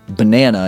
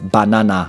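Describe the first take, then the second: First: The unstressed vowels are reduced to schwa. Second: The unstressed vowels are full, unreduced vowels. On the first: "Everything is a schwa now" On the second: "instead of"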